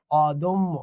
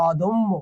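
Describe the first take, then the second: First: অদম্য said slowly, open ɔ at the start; pronunciation demo. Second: অদম্য with an open অ, "ɔdommo"; pronunciation demo. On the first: Teacher to students, modelling the open অ of অদম্য. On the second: Teacher to students, contrasting open অ in অদম্য. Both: Shown as a demonstration. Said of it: "এটা হচ্ছে অ".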